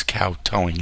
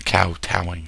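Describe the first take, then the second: First: "kowtowing" with the middle as TOE, slowly; said as cow-towing. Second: Said in the usual way. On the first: Shown as a demonstration. Teacher joking about a picture, "kowtowing" pronounced cow-TOE-ing. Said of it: "That's kowtowing, and it's very dangerous". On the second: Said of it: "this is not".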